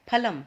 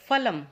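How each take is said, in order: First: फलम begun with an aspirated ph; aspirated p, not f, in फलम; correct pronunciation. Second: फलम begun with an English f; f sound instead of aspirated ph in फलम; common mispronunciation. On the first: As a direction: say फलम as "phalam", lips closed then a puff. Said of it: "ये है फलम". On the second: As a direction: say फलम as "falam", teeth on lip. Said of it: "अधिकतर बच्चे क्या बोलते हैं". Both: Shown as a demonstration.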